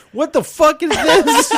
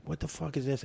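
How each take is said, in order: First: Much higher and louder, slow shocked shout; hammed-up outraged yell at the pump; roommate yelling. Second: Said in the usual way. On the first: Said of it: "roommate pulls out the pump and goes". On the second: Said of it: "he's like".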